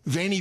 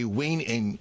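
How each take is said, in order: First: The word is said in the familiar church style. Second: The word is said in classical Latin style. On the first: "You've heard of that?" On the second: "In classical, you'd actually say veni"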